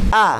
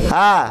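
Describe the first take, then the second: First: The sound is cut off sharply, without breath. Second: The sound flows out with audible breath. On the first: The speaker calls it right. "Karena sifat syiddah itu tertahan" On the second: The speaker calls it wrong. "Kalau baca gini, ... berarti keluar dari sifatnya"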